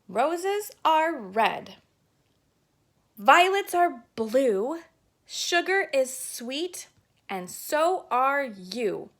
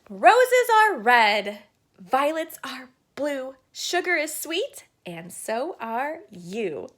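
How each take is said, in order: First: It is recited in a calm, even voice. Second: It is recited with confident, excited energy.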